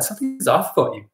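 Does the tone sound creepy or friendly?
friendly. The tone sounds warm and playful. The remark comes across as light teasing. The speaker calls it right. "instead of saying, oh my God"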